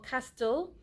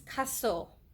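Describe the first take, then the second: First: The T sound is pronounced in the word. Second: The T sound is silent in the word. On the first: The speaker calls it wrong. "it no longer stays at cast le or castle" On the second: The speaker calls it right. "it becomes castle ... silent T rule"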